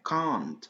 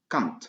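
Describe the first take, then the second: First: The vowel is long. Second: The vowel is short. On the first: The speaker calls it right. "mais Kant ... avec une longue" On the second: The speaker calls it wrong. "c'est pas Kant"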